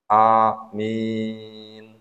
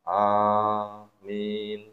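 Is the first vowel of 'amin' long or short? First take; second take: short; long. First: The first vowel is short, the second long. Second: Both vowels are held long. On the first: "Boleh A, dua, min, enam" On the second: "Boleh masing-masing enam harokat. A, enam, min, enam"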